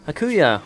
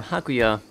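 First: Hakuya with unstressed first vowel, "huh-KOO-ya"; alternative name pronunciation. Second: Hakuya with an open first A, "hah-KOO-ya"; alternative name pronunciation. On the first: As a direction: say Hakuya with a quick, reduced "huh" at the start. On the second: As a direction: say Hakuya with a full "hah" at the start. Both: Shown as a demonstration. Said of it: "whatever the hell you wanna pronounce it".

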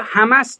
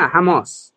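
First: "حماس" with short final a, hæmæs; mispronounced Hamas. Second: "حماس" with long back final vowel, hæmɑs; correct Hamas pronunciation. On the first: Retold or imitated. Presenter quoting the analysts' mistake, "حماس" mispronounced as hæmæs. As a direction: imitate their wrong "حماس", second vowel like "cat". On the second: Shown as a demonstration. Presenter correcting the analysts, "حماس" pronounced properly as hæmɑs. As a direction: give "حماس" its long ā in the second syllable. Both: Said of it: "این کلمات رو درست، ... تلفظ بکنن".

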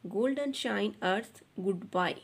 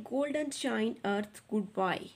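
First: "golden shine earth goodbye" again read slowly and evenly; slow model reading, repeated; slow fluent reading. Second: "golden shine earth goodbye" read very slowly and evenly; slow fluent reading. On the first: (धीमे और साफ़ दोहराना) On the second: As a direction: read each word out slowly for the class. (धीमे और साफ़ पढ़ना) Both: Shown as a demonstration. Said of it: "बच्चों इस तरह से पढ़ेंगे".

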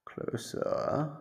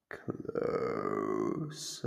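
First: Breathy whisper, rising, much higher; whispered coaxing. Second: Much lower, slow and rising; low drawn-out lure. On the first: Captor whispering to lure the prisoner closer. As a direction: coax it out in a whisper. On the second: Captor luring the prisoner closer with a low drawn-out call. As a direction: draw the word out deep and luring. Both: Acted. Guiding prisoner toward her.

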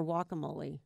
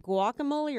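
First: "guacamole" starting on a W, wah; silent G. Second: "guacamole" with the G sounded; hard G. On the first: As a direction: drop the G from "guacamole", as wah-camole. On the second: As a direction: say "guacamole" starting on a hard G, gwah. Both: Shown as a demonstration. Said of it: "I always thought the G was silent".

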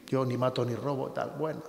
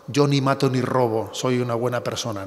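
First: Softer, throwaway echo of the cliché; dismissive mock quote. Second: Smug frivolous boast. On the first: Priest repeating the hollow phrase, softer and dismissive. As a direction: murmur it back as a hollow excuse. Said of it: "Cuidado con esa expresión". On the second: Retold or imitated. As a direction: toss it off like a smug excuse. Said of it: "Con esa frase frívola".

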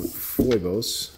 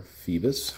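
First: "Phoibos" pronounced FOY-bohs; variant name pronunciation. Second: "Phoebus" pronounced FEE-bus; alternative name pronunciation. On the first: Reviewer naming the watch's maker, "Phoibos" said as FOY-bohs. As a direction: give "Phoibos" an oy in the first syllable, FOY-bohs. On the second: Reviewer offering the other reading of the brand, "Phoebus" said as FEE-bus. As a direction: give "Phoebus" an ee in the first syllable, FEE-bus. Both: Shown as a demonstration. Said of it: "however you wanna say that".

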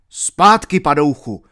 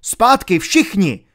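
First: Shouted command. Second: Slow, loud, high Zpátky all ringing out; shouted command. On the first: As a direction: yell Zpátky to drive him back. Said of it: "vzkřikl Alan". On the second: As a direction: roar Zpátky at the whole gang. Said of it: "vykřikl". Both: Acted.

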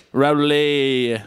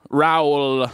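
First: Raoul drawn out as "ra-LAY"; playful mispronunciation. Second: Raoul said as "rah-OOL", drawn out; trying out pronunciations. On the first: Host introducing the captain, trying Raoul as "ra-LAY". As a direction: end Raoul on a long "ay", as "ral-ay". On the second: Host introducing the captain, trying Raoul as a drawn-out "rowl". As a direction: stretch Raoul out as "rowl", one gliding sound. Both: Pretend. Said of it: "is that how you say that?".

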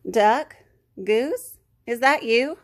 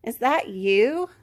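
First: Raised questioning storybook call. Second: Slow, questioning surprise, rising; lightly voiced puzzled duck; quacking duck. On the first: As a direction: separate calls, each rising. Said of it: "the swamp monster called". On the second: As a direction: stretch it out in amazed recognition. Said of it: "Duck quacked". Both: A narrator's reading.

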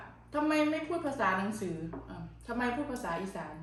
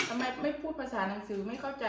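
First: Said in the usual way. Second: Drawn-out, very slow retelling of a commenter; mock-slow complaint; slow mocking quote. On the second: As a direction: stretch each word like a puzzled critic. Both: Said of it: "เขาบอกว่า".

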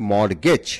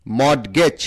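First: মর্টগেজ with a silent T, "mor-gej"; correct pronunciation. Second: মর্টগেজ with the T sounded; mispronounced মর্টগেজ. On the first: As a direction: say মর্টগেজ with R going straight into G. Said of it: "সঠিক উচ্চারণ হচ্ছে". (মর্টগেজ, ট অনুচ্চারিত) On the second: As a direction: say মর্টগেজ as spelled, a stop before G. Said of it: "এই উচ্চারণটা সঠিক নয়". (মর্টগেজ, ট উচ্চারণ করে) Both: Shown as a demonstration.

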